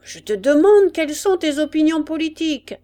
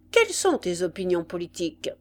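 First: Loud, high, impatient questioning; insistent demand. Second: Said in the usual way. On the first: A narrator's reading. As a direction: bark the question as an impatient sergeant. Sergeant repeats his unanswered question. (exigence impatiente et forte)

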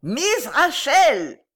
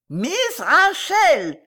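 First: High, loud, very slow yell; shouting. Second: Very high, loud, drawn-out yell; howling. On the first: Informer crying into the old lady's ear, shouting. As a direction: bellow the name syllable by syllable. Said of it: "cria dans l'oreille de la vieille lady". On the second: Fat boy repeating it for deaf mistress, howling. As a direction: howl the name slowly at full pitch. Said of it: "hurla le gros joufflu". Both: A narrator's reading.

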